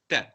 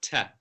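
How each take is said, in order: First: The t is said with tongue behind teeth. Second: The t is said like an English t. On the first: The speaker calls it right. "your tongue behind your top two teeth" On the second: The speaker calls it wrong. "it's not the English version of t. It's not ta"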